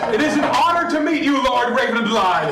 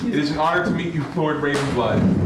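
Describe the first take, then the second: First: It is said smoothly with strong energy. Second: It is said smoothly with plain energy.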